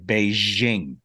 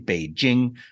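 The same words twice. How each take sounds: First: The middle consonant is a soft 'zh' sound. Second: The middle consonant is a hard 'j' sound. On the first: The speaker calls it wrong. "They zhuzh it up" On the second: The speaker calls it right. "It's just straight J. There's no Z H sound"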